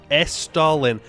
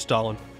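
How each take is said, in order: First: The E sound is clearly emphasized. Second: The E sound is barely heard. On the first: It names the nation in the game. The speaker calls it right. "emphasizing the E" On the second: It sounds like a historical leader's name. The speaker calls it wrong. "I should pronounce the word better"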